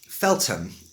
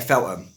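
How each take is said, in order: First: The name is said in careful standard pronunciation. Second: The name is said in a local London accent. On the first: "pronounced correctly" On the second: "But I say Feltham. That's my accent"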